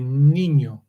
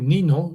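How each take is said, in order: First: The second consonant is a ny sound. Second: The second consonant is a plain n sound. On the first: The speaker calls it right. "you say niño" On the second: The speaker calls it wrong. "You don't say nino"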